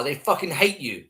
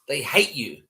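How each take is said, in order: First: Said in the usual way. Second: A breathy whispered repeat. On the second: Real, not acted. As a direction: whisper "They hate you" with no voice.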